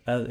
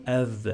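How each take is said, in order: First: "adh" with the voiced th doubled and held; correct doubled th. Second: "adh" said the wrong way, th not held; quick "adh" with a single short th; wrong pronunciation. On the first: Teacher corrects the Arabic word, doubled th. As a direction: lean into a long buzzing th in "adh". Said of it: "it is adh". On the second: Teacher shows students what it's not, single th. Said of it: "it's not adh". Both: Shown as a demonstration.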